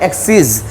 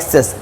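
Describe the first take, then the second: First: The last syllable has an 'ee' vowel. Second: The last syllable has a short 'eh' vowel. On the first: The speaker calls it right. "এটা হবে এক্সিস" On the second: The speaker calls it wrong. "This is not এক্সেস"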